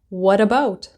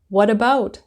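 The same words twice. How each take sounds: First: The t in what sounds like a d. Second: The same.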